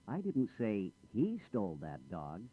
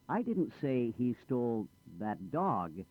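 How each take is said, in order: First: The word he carries the main stress. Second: The word dog carries the main stress. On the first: Someone other than him did it. "I didn't say he did it. I said she or someone else did it" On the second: He took a different animal. "Not the dog. I said he stole the cat"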